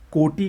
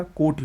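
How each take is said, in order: First: कोटि ending in long "ee"; wrong pronunciation. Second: कोटि ending in short "i"; correct pronunciation. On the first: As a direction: stretch the final vowel of कोटि. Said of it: "का कोटि होता है". (कोटि को "कोटी" बोलें) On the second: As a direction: keep the final vowel of कोटि short. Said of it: "कोटि होता है". (कोटि में छोटी "इ") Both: Shown as a demonstration.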